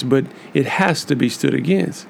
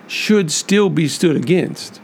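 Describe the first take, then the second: First: "has" pressed with a rising lift; firm insistence landing on "has"; stress on has. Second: Should hit hard, the phrase slowed and drawn out; stress on should. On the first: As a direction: punch "has" to insist it must happen. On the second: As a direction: lean on "should" and take it slow. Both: Real, not acted.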